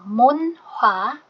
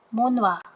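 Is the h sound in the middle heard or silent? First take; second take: heard; silent. First: The h sound in the middle is pronounced. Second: The h sound in the middle is dropped.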